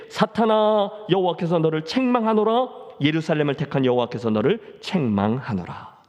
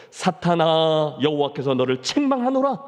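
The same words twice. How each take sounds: First: A hint of a stern divine rebuke; God rebuking Satan. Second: Slow, measured stern rebuke; God rebuking Satan. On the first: Preacher voicing God rebuking Satan, stern and firm. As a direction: declare the rebuke with firm authority. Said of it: "여호와께서 사탄에게 이르시되". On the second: Acted. Preacher voicing God rebuking Satan, slow and stern. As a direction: draw out each word with authority. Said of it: "사탄을 꾸짖는다는".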